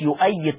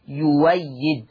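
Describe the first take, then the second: First: The middle consonant is a glottal stop. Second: The middle consonant is a w sound. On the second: "تقرأ يويد"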